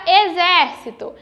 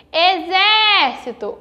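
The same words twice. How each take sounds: First: Said in the usual way. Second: "Exército" with a long, open ZÉ; slow, called-out "Exército", stressed é held out; calling the word. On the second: Shown as a demonstration. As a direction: stretch the second syllable of "Exército". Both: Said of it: "quando eu chamei pela palavra".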